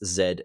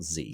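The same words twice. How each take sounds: First: The letter is said the Australian way, zed. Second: The letter is said the American way, zee.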